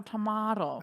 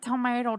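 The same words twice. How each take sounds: First: Tomato with an open AH in the middle; tomato with the vowel of father; tomato as to-MAH-to. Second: Tomato with an AY in the middle; tomato with the vowel of may, punched up. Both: Shown as a demonstration. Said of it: "It's like tomato".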